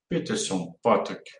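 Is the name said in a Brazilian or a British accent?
British. It is said in a British English accent.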